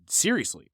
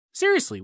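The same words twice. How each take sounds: First: Said in the usual way. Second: Seriously jumps way up high; incredulous. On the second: Real, not acted. Comedian repeating the story, suddenly incredulous. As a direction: shoot the word up in shock.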